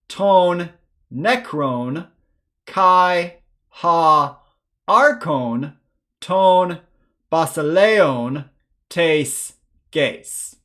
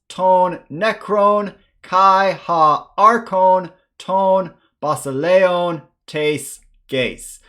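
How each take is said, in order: First: It is read at a slower pace. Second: It is read at a faster pace.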